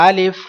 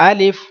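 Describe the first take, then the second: The two takes are said the same way.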